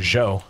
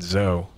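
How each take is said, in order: First: The name begins with a j-like sound. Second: The name begins with a plain z sound. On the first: The speaker calls it right. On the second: The speaker calls it wrong.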